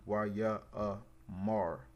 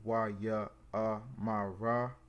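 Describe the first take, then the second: First: The last syllables are joined into one, mar. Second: The last syllables are said separately as ma-ra. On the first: The speaker calls it right. "since this is connected, it would be" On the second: The speaker calls it wrong. "instead of it being"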